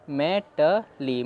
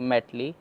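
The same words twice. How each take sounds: First: मेटली stretched very slowly as मे ट ली; slow read-through. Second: Said in the usual way. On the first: Shown as a demonstration. Teacher reading the word part slowly for students. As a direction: drag out मेटली sound by sound. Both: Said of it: "अब हम पूरा पढ़ लेते हैं".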